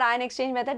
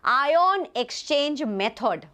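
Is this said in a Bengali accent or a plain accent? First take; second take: plain; Bengali. First: It is said in the speaker's plain accent. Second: It is said in a Bengali accent with prominent O sounds.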